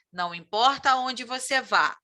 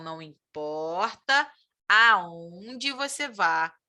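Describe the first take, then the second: First: Said in the usual way. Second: Slow, leaning on "aonde" with a rising tune; stress on aonde. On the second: Shown as a demonstration. Teacher shows students why aonde fits, slow stress on "aonde". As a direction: linger on "aonde" and lift it so the class hears it. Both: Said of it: "Por que que ali a gente usou aonde?".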